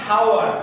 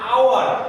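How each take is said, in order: First: The word begins with an h sound. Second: The word begins directly with a vowel. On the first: The speaker calls it wrong. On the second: The speaker calls it right.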